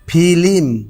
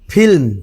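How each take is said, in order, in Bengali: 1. একটি অতিরিক্ত স্বরধ্বনি ব্যঞ্জনগুচ্ছকে ভাগ করে দেয়। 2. ব্যঞ্জন দুটি কোনো স্বরধ্বনি ছাড়াই একসাথে উচ্চারিত হয়।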